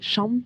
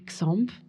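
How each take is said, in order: First: The name begins with a 'sh' sound. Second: The name does not begin with a 'sh' sound. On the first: This is how it would be said in Catalonia. "en Catalogne, on dirait champ ... le X se prononce ch" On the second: This is how the duo says it. "nous, on dit Xamp"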